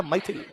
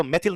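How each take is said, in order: First: "मैथिल" with ai glide, MAI-thil, softly; corrected ai vowel. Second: "मैथिल" with a plain e, MEH-thil; wrong vowel. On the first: Teacher gives students the right name, "मैथिल" said MAI-thil. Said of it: "क्या होता है". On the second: Teacher rejects the wrong name, "मैथिल" mispronounced MEH-thil. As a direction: say "मैथिल" as if spelt मेथिल. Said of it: "तो मैथिल नहीं होता". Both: Shown as a demonstration.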